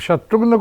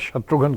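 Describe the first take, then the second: First: The name ends in 'ghna', with no vowel before n. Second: The name ends in 'ghan', with a vowel before n. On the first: This is the original form of the name. "जी H N A" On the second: This is the simplified form of the name. "जी H A N कर दिया"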